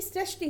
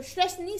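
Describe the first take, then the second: First: Said in the usual way. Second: सृष्टि beginning with sh, shrashti; wrong pronunciation. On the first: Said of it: "सृष्टि होता है". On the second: Shown as a demonstration. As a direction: start सृष्टि on sh instead of s. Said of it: "दंत सा का प्रयोग होता है".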